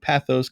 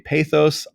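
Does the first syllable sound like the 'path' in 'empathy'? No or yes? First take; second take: yes; no. First: The first syllable sounds like that in 'empathy'. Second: The first syllable differs from that in 'empathy'. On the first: This matches the related words empathy and sympathy. "I like pathos because empathy, sympathy" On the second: Some other people say it this way. "Some say pathos"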